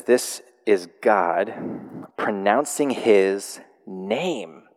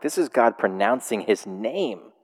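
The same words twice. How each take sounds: First: Slow, deliberate fill-in-the-blank read. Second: Said in the usual way. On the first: Shown as a demonstration. Pastor reading the blank on the handout to the congregation, slow and deliberate. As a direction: draw out each word like a prompt. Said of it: "it says". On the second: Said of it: "that's actually a fill in the blank".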